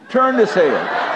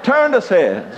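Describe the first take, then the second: First: Higher, slow put-on rabbit voice with a laugh; rabbit's voice. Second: Repeated higher with a laugh; laughing rabbit line again; rabbit's voice. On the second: Retold or imitated. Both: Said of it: "and he said".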